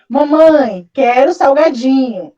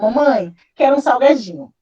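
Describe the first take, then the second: First: The request is said in a louder voice. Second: The request is said at a normal volume.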